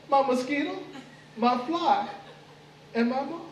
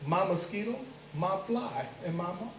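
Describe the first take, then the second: First: Higher, savoring each name as his next meal; gleeful menace. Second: Said in the usual way. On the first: Acted. Anansi tells the mosquito, fly and moth they're his dinner, gloating. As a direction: gloat over them like prey.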